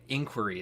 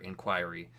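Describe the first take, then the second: First: It does not sound like 'inquire' with an ending. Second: It sounds like 'inquire' with an ending added. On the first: It is the form commonly heard, perhaps British. "inquiry is how I usually hear it" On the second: It follows the verb it comes from. "that's always how my brain wants to say it. Because inquire"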